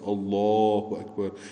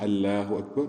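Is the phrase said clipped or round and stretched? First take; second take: stretched; clipped. First: The vowels are rounded and drawn out. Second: The vowels are short and not rounded. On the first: The speaker calls it right. "we should make it round and we should stretch it" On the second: The speaker calls it wrong. "it's not Allahu Akbar"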